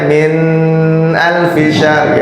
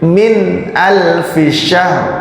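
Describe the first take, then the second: First: The n of min is blurred, not clear. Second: The n of min is pronounced clearly. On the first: The speaker calls it wrong. "Nggak boleh dibacanya min alfi syahr gitu, nggak boleh. Jadi harus jelas" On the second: The speaker calls it right. "maka dia dibacanya jelas"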